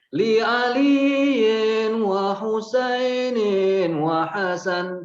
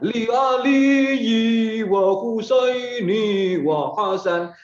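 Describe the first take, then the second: First: The names end with an added n sound. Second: The names end without an added n sound. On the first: The speaker calls it right. "Tuh, ada lagunya tuh" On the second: The speaker calls it wrong. "Jangan kamu baca"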